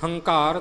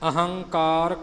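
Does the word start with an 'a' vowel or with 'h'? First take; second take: h; a vowel. First: The word begins directly with an 'h' sound. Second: The word begins with an 'a' vowel sound. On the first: The speaker calls it wrong. "ਹੰਕਾਰ ਜਾਂ ਹੰਕਾਰੀਆ ਨਹੀਂ ਬੋਲਣਾ" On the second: The speaker calls it right. "ਇਹ ਐੜੇ ਵੀ ਬੋਲਣੇ ਨੇ"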